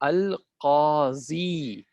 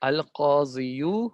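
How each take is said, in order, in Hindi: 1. यह शब्द लंबी 'ee' ध्वनि से खत्म होता है। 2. यह शब्द 'yoo' ध्वनि से खत्म होता है। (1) "यहाँ पे इस्तेमाल किया अल काजी" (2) "इसको अल काजियू हो जाना चाहिए था"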